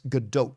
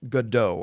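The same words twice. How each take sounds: First: The word ends with a T sound. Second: The word ends without a T sound. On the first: The speaker calls it right. "the proper pronunciation ... is Godot with a T on the end" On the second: The speaker calls it wrong. "I thought for a very, very long time it was pronounced Godot"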